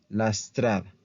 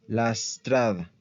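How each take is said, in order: The two takes are said the same way.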